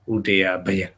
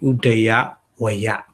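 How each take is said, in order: First: The second word starts with a b sound. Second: The second word starts with a v sound. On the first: This is the form Pali grammar gives. "change V into B, double B. So Udaya Baya" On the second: This is the original form of the word. "But actually Udaya Vaya"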